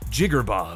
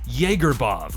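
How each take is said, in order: First: The name is said short and clipped. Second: The first part sounds like Jäger. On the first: "Some people say short and sweet like" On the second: "Some people say Jaegerbov like Jägermeister"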